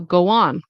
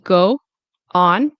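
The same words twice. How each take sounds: First: A light w sound links the two words. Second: The two words are said separately, without linking. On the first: The speaker calls it right. "with the W in between, a light W" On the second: The speaker calls it wrong. "like two separate words"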